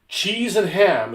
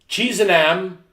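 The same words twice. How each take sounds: First: The h at the start of ham is pronounced. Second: The h at the start of ham is dropped. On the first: "instead of" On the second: "no H for you"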